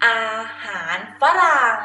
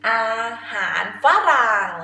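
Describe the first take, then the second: No difference in how they are said.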